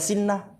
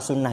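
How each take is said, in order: First: The first vowel is i. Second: The first vowel is u. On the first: The speaker calls it wrong. "Bisa aja antum baca sinnah" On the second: The speaker calls it right. "sunnah ini deh"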